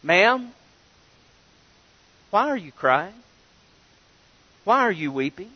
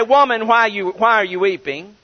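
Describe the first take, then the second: First: A soft, respectful "Ma'am, why are you crying?" that grows softer; gentle, respectful. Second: A curt, blunt "Woman, why are you weeping?" with "Woman" pressed hard; blunt address. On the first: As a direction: ask her kindly, like a gentleman to a grieving lady. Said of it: "It was more of our". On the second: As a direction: call her "Woman" like a cold command. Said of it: "They didn't say". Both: Shown as a demonstration.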